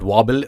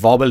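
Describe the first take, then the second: First: The word begins with a W sound. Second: The word begins with a V sound. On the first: The speaker calls it wrong. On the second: The speaker calls it right. "I said Wobble, ... V O B B L E"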